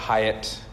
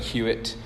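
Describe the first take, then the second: First: The name sounds like 'Hyatt'. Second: The name sounds like 'Hewitt'. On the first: This is how some people say it. "Some people pronounce it Hyatt" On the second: This is how the spelling suggests it is said. "It looks like Hewitt"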